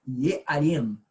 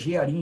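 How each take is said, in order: First: The word begins with a Y sound. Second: The word begins with a ZH sound. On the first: This is the original Semitic pronunciation. "a pronúncia na realidade semita é Yearim" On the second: This is how it is said in Portuguese. "a gente fala Jearim aqui em português"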